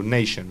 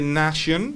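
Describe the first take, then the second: First: Nation with an ay vowel, NAY-shun; English nation, first vowel gliding ay; A said as nei. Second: Nation with an open ah, NAH-shun; Spanish-style A. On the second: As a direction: say the first vowel of nation as ah. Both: Shown as a demonstration. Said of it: "esa A la vamos a pronunciar nei".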